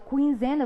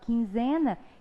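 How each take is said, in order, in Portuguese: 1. Um som de 'w' segue o som de k. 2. Nenhum som de 'w' segue o som de k. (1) "eu não falo quinzena" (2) "eu falo quinzena. Então significa que o U não foi pronunciado"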